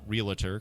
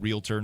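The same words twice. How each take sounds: First: The word is said with an extra middle syllable. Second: The word is said with two syllables. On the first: The speaker calls it wrong. "not realtor, because realtor is not a word" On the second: The speaker calls it right. "notice I said realtor"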